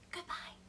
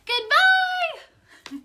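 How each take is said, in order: First: It is said very quietly. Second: It is said very loudly.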